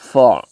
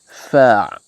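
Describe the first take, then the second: First: The vowel sounds rounded, like o. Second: The vowel is a clear, open a. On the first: The speaker calls it wrong. "It is not fa. ... It's not for" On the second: The speaker calls it right. "Fa must be given its right for fatha"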